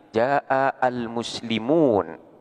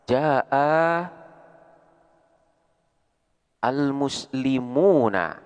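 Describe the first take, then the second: First: The last word ends on a bare n sound. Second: The last word ends with a short a vowel. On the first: "harkat daripada nun ini pun menjadi sukun" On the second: "harkat akhir ... adalah berupa harkat fathah"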